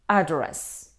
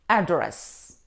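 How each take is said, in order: First: The stress is on the first syllable. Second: The stress is on the first syllable.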